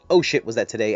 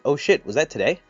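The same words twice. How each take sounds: First: It is said flatly, falling at the end. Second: It is said as a question, rising at the end.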